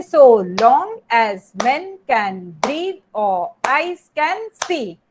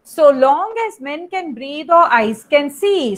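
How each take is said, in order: First: "So long as men can breathe or eyes can see" chanted slowly, word by word in an unstressed-stressed beat; slow, measured iambic scansion of "So long as men can breathe or eyes can see", each syllable set apart; scanning the meter. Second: Said in the usual way. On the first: Shown as a demonstration. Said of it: "it is an unstressed syllable". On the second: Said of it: "I have given one line".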